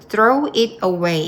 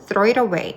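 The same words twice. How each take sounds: First: Each word is said separately, without linking. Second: The words run together with linked sounds. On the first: The speaker calls it wrong. "이게 아니고" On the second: The speaker calls it right. "이런 식으로"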